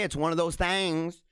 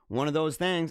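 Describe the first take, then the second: First: Drawn-out "things" with an A vowel, thangs. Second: Said in the usual way. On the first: Shown as a demonstration. Streamer shrugging off a busy day, "things" said as "thangs". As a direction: stretch "things" into a slow "thangs". Says it as thangs, then normally.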